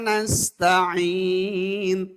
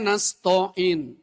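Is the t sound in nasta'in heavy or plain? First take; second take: plain; heavy. First: The t is a plain, light t sound. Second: The t is a heavy, emphatic t sound. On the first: We ask You for help. The speaker calls it right. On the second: We ask You for plague. The speaker calls it wrong.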